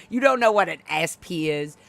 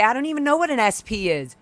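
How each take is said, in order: First: Said in the usual way. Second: Higher, falsely innocent "I don't even know"; a hint of a playing-dumb owner; mocking the owner. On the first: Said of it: "She's such a fucking liar". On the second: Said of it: "she was trying to say".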